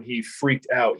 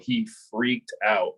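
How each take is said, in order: First: Said in the usual way. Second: "freaked out" drawn out slowly for weight; emphatic repeat. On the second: Real, not acted. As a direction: stretch "freaked" and let "out" drop.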